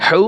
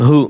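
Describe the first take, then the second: First: হু with a pharyngeal h; throaty ha. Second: হু with a glottal h; open ha. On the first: Teacher drilling two ha letters, tight-throated হু. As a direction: squeeze mid-throat for the h of হু. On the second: Teacher drilling two ha letters, open-throated হু. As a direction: breathe out an open h in হু. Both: Shown as a demonstration. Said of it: "ছোট হা, বড় হা".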